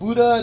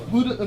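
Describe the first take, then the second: First: The d sound is plain, with no breath. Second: The d sound is breathy, with a puff of air. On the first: The speaker calls it wrong. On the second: The speaker calls it right.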